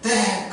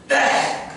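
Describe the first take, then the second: First: It is said shyly but happily, like the bride. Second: It is said loudly and happily, like the groom.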